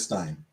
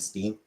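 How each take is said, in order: First: The vowel is an 'eye' sound. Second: The vowel is an 'ee' sound. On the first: "pronounce it as Steen or Stein" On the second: "everyone and their mom said Steen"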